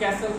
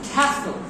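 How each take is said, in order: First: The first k sound is plain, without a puff. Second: The first k sound is aspirated, with a puff. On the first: The speaker calls it wrong. "not ক" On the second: The speaker calls it right. "খ castle"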